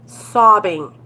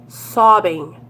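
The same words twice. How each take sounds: The two takes are said the same way.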